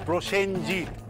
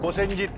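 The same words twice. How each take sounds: First: The r sound after the first consonant is pronounced. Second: The r sound after the first consonant is dropped. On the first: The speaker calls it right. "প্রত্যেকটাতে রফলা বলবে" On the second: The speaker calls it wrong. "ওটা প্রসেনজিৎ নয়"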